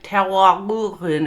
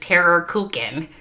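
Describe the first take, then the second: First: It imitates a foreign pronunciation of the vowel. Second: It is said with an American Minnesota accent. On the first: "it's like Tero Kulkin" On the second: "in my Minnesota way, I would call this"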